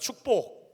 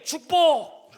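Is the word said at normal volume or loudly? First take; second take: normal; loudly. First: The word is said at normal volume. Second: The word is said loudly.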